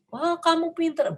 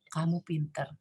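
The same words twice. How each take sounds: First: High, eager burst of praise; too-early praise. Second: Soft, low "Kamu pinter."; calm praise. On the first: Parent praising a child before the task is done, high and eager. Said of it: "kita jangan berikan perhatian yang". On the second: Parent praising the child once the glasses reach the table, softly. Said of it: "sampai di atas meja baru kita ngomong". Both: Shown as a demonstration.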